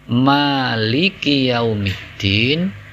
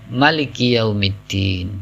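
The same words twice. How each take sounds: First: The first vowel of maliki is held long. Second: The first vowel of maliki is short. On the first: God is the owner of the Day of Judgment. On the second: God is the king of the Day of Judgment.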